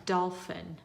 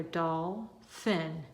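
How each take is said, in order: First: Said in the usual way. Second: "doll, fin" as two separate, drawn-out syllables. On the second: Shown as a demonstration. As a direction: say "doll", pause, then "fin". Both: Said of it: "Now read your two together".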